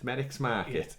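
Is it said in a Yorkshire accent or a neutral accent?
Yorkshire. It is said with a Yorkshire twang.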